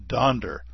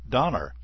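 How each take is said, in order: First: The name is said with a d before -er. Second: The name is said without a d before -er. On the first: The speaker calls it right. "It's Donder, I tell you" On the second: The speaker calls it wrong. "mispronounces Santa's reindeer's name as Donner"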